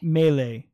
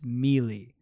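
First: The first syllable sounds like 'may'. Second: The first syllable sounds like 'mee'. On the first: This is how most people say the word. "But people pronounce it melee. ... which would make sense if it was M-A-Y-L-A-Y" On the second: This is the word read as it is spelled. "if you read it for what it is, it's melee"

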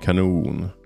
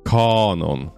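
First: The stress is on the second syllable. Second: The stress is on the first syllable. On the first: It is the Swedish word meaning a cannon or great. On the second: It is the English word for a rule or body of works.

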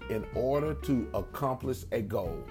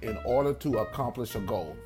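First: It is spoken at a slowed-down pace. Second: It is spoken at a normal, quicker pace.

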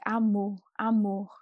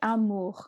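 First: The R does not sound like a French R. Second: The R sounds like a French R. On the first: This is how it sounds in São Paulo. "if you're from São Paulo, it might sound a little closer to like amor" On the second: This is how it sounds in the north. "if you go to the north, it could sound a little bit like the French R"

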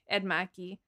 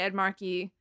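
First: The name is said in a Boston accent. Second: The name is said in a plain, neutral accent. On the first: "it's really hard to say Ed Markey and not say, like" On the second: "I don't have that accent"

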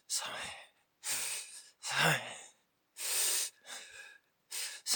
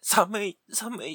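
First: It is said in a tiny voice. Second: It is shouted in a loud voice.

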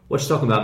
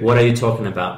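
First: The words are shrunk and linked together. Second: Every word is said fully and clearly.

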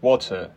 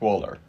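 First: It is said with a British accent. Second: It is said with an American accent.

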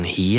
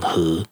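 First: It is said with the standard Taiwanese pronunciation. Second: It is said with the Haikou coastal-accent pronunciation.

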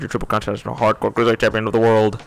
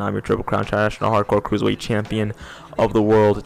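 First: It is said very fast. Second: It is said more slowly.

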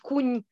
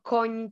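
First: The vowel sounds close to u, a regional pronunciation. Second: The vowel sounds like a standard open o. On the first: This is how people speak in rural regional dialect. The speaker calls it wrong. "żeby nie mówić kuń" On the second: This is the standard pronunciation. The speaker calls it right. "tylko koń"

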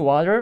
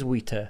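First: The word is pronounced in a standard way. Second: The word is pronounced in a distorted way. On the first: The speaker calls it right. "you mean water?" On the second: The speaker calls it wrong. "that is wrong pronunciation"

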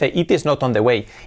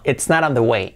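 First: The word 'is' is said in full. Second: The word 'is' is contracted to 's'. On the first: The speaker calls it wrong. "No dice, it is not on the way" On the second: The speaker calls it right. "La I que no dice it is not"

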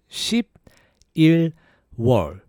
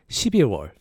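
First: It is said slowly. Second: It is said fast.

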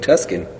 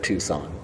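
First: The name is said like 'Tuscan', with a k sound. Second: The name is said like 'Toosahn', without a k sound. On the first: The speaker calls it wrong. "That time I purposely said Tuscan instead of Tucson" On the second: The speaker calls it right. "instead of Tucson"

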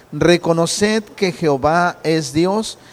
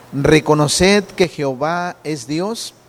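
No difference in how they are said.

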